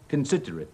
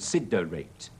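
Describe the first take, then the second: First: The unstressed vowels are weak and reduced. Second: The unstressed vowels are full and clear. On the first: The speaker calls it right. "最後呢個字係considerate" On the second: The speaker calls it wrong. "千祈唔好講considerate"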